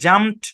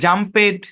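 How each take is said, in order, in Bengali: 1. এই অংশে কোনো বাড়তি উচ্চারণ যোগ হয় না। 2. এই অংশটি আলাদা একটি উচ্চারণ হিসেবে বলা হয়। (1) "সঠিক উচ্চারণ হচ্ছে" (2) "এগুলো ভুল উচ্চারণ"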